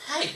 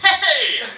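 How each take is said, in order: First: It is said softly in a hushed voice. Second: It is said loudly with exaggerated energy.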